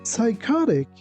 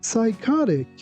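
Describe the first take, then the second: No difference in how they are said.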